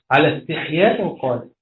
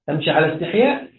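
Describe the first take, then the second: First: استحياء linked straight into قالت; resumed, joined reading. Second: Phrase halted on استحياء, left suspended with a rise; pause after استحياء. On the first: Teacher repeating the demo, joining استحياء to قالت. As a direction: pick up from على and carry through to a falling قالت. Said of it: "ثم يقول". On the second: Teacher repeating the demo for students, stopping on استحياء. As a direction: stop after استحياء as if the phrase ends there. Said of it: "ويقف". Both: Shown as a demonstration.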